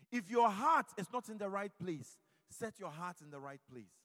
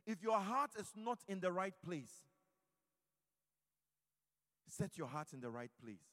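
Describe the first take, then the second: First: Much louder on "heart", near a shout; shouted exhortation. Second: Steady preaching, louder on "heart"; first plea, forceful but held back; firm exhortation. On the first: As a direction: drive the plea home at full volume. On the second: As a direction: urge the listeners to set their hearts right. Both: Acted.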